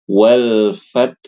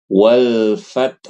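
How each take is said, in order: Both takes have the same delivery.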